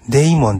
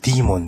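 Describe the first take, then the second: First: The first syllable sounds like 'day'. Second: The first syllable sounds like 'dee'. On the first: The speaker calls it wrong. "デイモンっていうのは発音が違います" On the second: The speaker calls it right. "ディーモンです"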